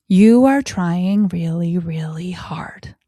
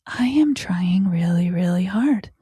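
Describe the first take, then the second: First: Encouraging. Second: Put-on whispered self-talk of a child; child's inner voice. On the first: Shown as a demonstration. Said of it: "when a child is doing something". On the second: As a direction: let the child murmur it to itself in a whisper. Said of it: "they process and feel".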